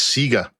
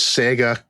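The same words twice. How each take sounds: First: It uses the pronunciation heard in Australia. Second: It uses the pronunciation heard outside Australia. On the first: "in Australia, it's Sega" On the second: "in other places, it's Sega"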